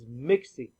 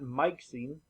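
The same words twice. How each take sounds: First: The first vowel is the short i sound. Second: The first vowel is not the short i sound. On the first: The speaker calls it right. "You see the short I" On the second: The speaker calls it wrong. "he's not mixing"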